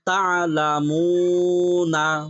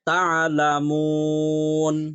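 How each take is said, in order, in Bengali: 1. শব্দটির শেষে একটি 'a' স্বরধ্বনি আছে। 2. শব্দটি কোনো স্বরধ্বনি ছাড়া 'n' দিয়ে শেষ হয়।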